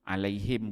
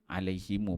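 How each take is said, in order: First: The word ends on a closed m sound. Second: The final m is followed by a u vowel. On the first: "Alaihim boleh" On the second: "alaihimu pun boleh"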